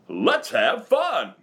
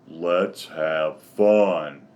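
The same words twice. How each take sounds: First: It is said in a Tigger voice. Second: It is said in an Eeyore voice.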